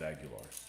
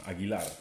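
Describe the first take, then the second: First: The name is said with English-style sounds. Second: The name is said with Spanish-style sounds. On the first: This is the version others can manage. The speaker calls it wrong. "It's the right, wrong way to say my name" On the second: This is how the name is really said. The speaker calls it right. "that's how you say my name"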